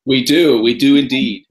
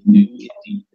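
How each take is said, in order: First: Said in the usual way. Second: Lifted, louder hammed-up repeat; a playful announcer echo; mock grand voice. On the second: Repeats answer in put-on voice.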